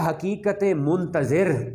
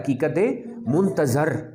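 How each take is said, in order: First: The last word ends with the sound 'zir'. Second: The last word ends with the sound 'zar'. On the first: The reality is the one who waits. The speaker calls it wrong. "मैंने teacher को pronounce करते हुए सुना, हकीकत मुंतज़िर नहीं होता" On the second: The reality is the one awaited. The speaker calls it right. "Correct pronunciation क्या है? हकीकत मुंतज़र"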